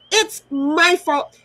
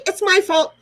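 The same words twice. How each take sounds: First: It's my fault, slow and deliberate, each word dragged; slow sarcastic. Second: It's my fault, high and loud, sarcastic. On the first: Bitter slow repeat to the auntie blaming her. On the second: Sarcastic jab at the auntie blaming her. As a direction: spit out It's my fault mockingly. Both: Real, not acted.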